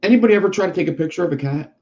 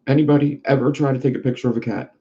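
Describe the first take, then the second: First: Higher and quicker, like a first try; raised, fast take. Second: Said in the usual way. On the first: Shown as a demonstration. Asking the audience, a quick raised question. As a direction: throw the question out fast and high. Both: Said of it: "repeated line".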